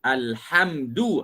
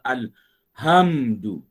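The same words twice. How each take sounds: First: The h is a raspy, throaty sound. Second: The h is a plain, soft sound. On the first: The speaker calls it right. "tidak disebut dengan Alhamdu" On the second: The speaker calls it wrong. "disebut dengan Alhamdu, tak jadi ha pedas"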